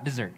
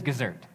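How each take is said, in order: First: Said in the usual way. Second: "dessert" said with a k sound at the start, like "kizzert"; toddler mispronunciation. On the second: Retold or imitated. Dad imitating his daughter saying "dessert" as "kizzert". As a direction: begin "dessert" with a hard k, the way a toddler says it. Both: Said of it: "not dessert".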